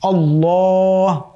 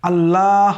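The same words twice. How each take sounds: First: The L is said heavy and full. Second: The L is said light and thin. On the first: The speaker calls it right. "মোটা হবে" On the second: The speaker calls it wrong. "বলা যাবে না, তাহলে লাম পাতলা হয়ে যাবে"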